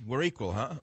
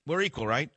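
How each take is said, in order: First: Mock disbelief with a rising "huh?"; sarcastic question. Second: "We're equal" dropped flat and falling, then a short rising "right?"; sarcastic retort. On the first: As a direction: scoff at the idea, tune going up on "huh?". Sarcastic challenge to equality. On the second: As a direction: state it as settled, then needle with "right?". Repeats the jab, landing it. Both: Real, not acted.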